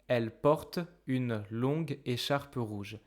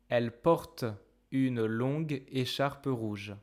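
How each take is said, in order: Both takes have the same delivery.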